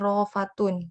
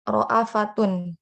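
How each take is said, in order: First: No glottal stop; a long 'aa' follows 'r'. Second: A glottal stop with a short 'a' follows 'ra'. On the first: "hamzahnya dihilangkan, dihadzaf, diganti dengan mad mad alif" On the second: "jadi hamzahnya dikasih tanda baca fathah"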